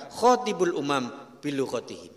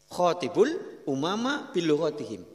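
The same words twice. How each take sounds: First: Slow, loud Arabic recitation; quoting scripture. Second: Said in the usual way. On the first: Shown as a demonstration. Preacher reciting the Prophet's words in Arabic. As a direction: intone the Prophet's saying slowly. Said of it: "Maka Rasul mengatakan".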